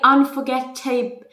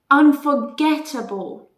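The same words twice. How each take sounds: First: The ending is a full, strong 'able'. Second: The ending is a weak, reduced 'ble'. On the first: The speaker calls it wrong. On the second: The speaker calls it right.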